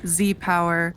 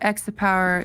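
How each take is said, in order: First: The name begins with a 'zee' sound. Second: The name begins with an 'ex' sound. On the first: "There's a lot of different ways to say it" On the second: "There's a lot of different ways to say it"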